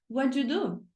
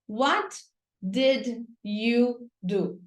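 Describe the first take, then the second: First: The words run together with sounds linked. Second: Each word is said separately and clearly. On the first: This is how people really speak. "Aí na vida real, a pessoa fala assim para você" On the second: This is the way it is taught in school. "Na escola você aprende assim"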